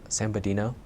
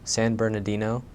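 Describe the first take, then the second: First: The middle syllables of the name are dropped. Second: Every syllable of the name is clearly pronounced. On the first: The speaker calls it wrong. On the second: The speaker calls it right.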